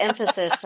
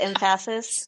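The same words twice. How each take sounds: First: Said in the usual way. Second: "emphasis" with the weight moved to PHA; shifted syllable stress. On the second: Shown as a demonstration. Friend joking about syllables, em-PHA-sis stressed wrongly. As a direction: say emphasis as em-FASS-is. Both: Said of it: "it's on a different syllable".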